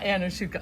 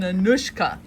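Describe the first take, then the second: First: The name has four syllables, with an extra vowel. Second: The name has three syllables, without the extra vowel. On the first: The speaker calls it wrong. "Not Anushuka" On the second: The speaker calls it right. "an Anushka"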